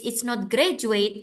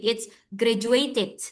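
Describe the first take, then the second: First: "graduate" said slowly without the -ed; slow demo of the wrong form "graduate". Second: "graduated" said slowly with a clear -ed ending; correct form. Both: Shown as a demonstration. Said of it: "what you need to say is".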